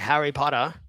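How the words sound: It is said in an Australian accent. "an Australian guy would say"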